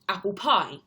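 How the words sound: The stress falls mainly on the word pie. "We put the stress on pie"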